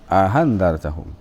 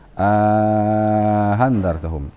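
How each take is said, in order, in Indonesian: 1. Vokal pendek datang sebelum hamza kedua yang dilunakkan. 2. Vokal panjang datang sebelum hamza kedua yang dilunakkan. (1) "Qiraah kelima meninggalkan uh, alif" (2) "Qiraah keempat ada alifnya"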